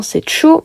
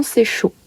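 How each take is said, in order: First: Cho said with a short open o. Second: "chaud" said softly, long closed o. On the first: Teacher contrasting cho with chaud for students. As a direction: say "cho" like French "chaud" but clipped. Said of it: "Le C avec accent". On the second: Teacher contrasting chaud with cho, quietly. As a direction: say "chaud" as the French word, dropped soft. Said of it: "mais le S avec accent". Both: Shown as a demonstration.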